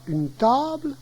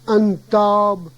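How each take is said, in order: First: The final l of table is clearly pronounced. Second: The final l of table is not pronounced. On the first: This is the standard French form. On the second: This is the Cauchois dialect form.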